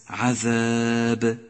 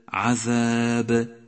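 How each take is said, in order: Both takes have the same delivery.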